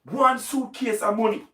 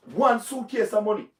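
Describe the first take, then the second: No difference in how they are said.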